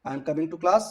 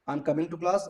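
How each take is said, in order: Both takes have the same delivery.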